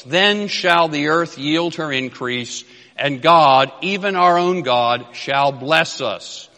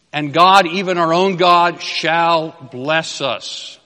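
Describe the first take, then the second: First: Slow, measured reading of the verse, God lifted; solemn scripture reading. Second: God called out louder, shall bless us drawn out slowly; emphatic reread. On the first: Preacher reads the verse to the congregation, slow and solemn. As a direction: read the King James words with reverence. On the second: Preacher repeats the promise to the church, louder and slower. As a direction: hammer home that God will bless. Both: Acted.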